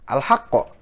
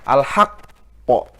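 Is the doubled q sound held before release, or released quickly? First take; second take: released quickly; held. First: The doubled q is released at once, not held. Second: The doubled q is held, then released with bounce. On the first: The speaker calls it wrong. "kita baca sudah kolkolah aja ... Itu kolkolah tapi dia bukan akbar" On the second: The speaker calls it right. "Jadi ditahan dulu beberapa detik, menyempurnakan tasdid, baru dilepaskan kolkolah"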